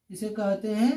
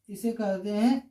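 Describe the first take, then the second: No difference in how they are said.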